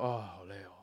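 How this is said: It sounds like general venting, aimed at nobody.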